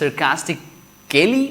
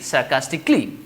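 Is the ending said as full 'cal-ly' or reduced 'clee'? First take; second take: cal-ly; clee. First: The ending is said fully as cal-ly. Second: The ending is reduced to one syllable, clee. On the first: The speaker calls it wrong. "instead of telling" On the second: The speaker calls it right. "we are going to say"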